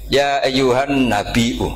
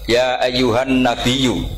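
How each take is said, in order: First: The last word has a glottal stop in it. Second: The last word has a y sound, no glottal stop. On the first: "ini mahmusul lam" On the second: "mentakfif hamzah menjadi ya"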